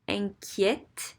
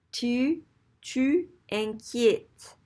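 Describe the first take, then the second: First: "inquiètes" ending in open "ett"; flipped accent. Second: Slow, higher "inquiètes" with a tight closed é before T; accent left unflipped. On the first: Teacher showing the flipped accent, "inquiètes" with open eh. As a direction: say "inquiètes" with an eh before the T. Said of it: "because of the way it sounds". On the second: Teacher showing the awkward form, "inquiètes" with closed é. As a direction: drag out "inquiètes" as if ending "kyate". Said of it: "It's hard to pronounce it that way". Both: Shown as a demonstration.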